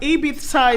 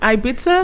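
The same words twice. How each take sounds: First: It is said the way locals pronounce it. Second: It is said the way most outsiders pronounce it. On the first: This is how people from the place say it. "Ibiza is what the local ones call it" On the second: This is how most other people say it. "every other person calls it Ibiza"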